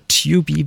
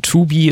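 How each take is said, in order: First: Tubi said English-style, "TYOO-bee"; English pronunciation. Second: Tubi with a plain German "oo"; German pronunciation. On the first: Host offering the other option, Tubi said the English way. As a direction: say Tubi with an English "you" sound. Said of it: "ist nicht Englisch". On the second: Host checking the guest's name, Tubi said the German way. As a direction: say Tubi as "TOO-bee". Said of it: "Habe ich das eigentlich richtig ausgesprochen?". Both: Shown as a demonstration.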